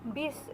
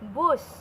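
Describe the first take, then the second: First: The word is said with an 'i' vowel. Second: The word is said with an 'u' vowel. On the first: This is the common everyday form. The speaker calls it wrong. "yang sering kita dengar" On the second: This is the standard dictionary form. The speaker calls it right. "itu yang benarnya menurut bahasa Indonesia yang baik dan benar"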